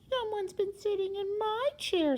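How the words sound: It is said in a wee little voice.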